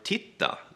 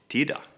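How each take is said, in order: First: The middle consonant is a hard T. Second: The middle consonant is a soft D. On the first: "a hard T" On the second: "a hard T is often replaced with a D"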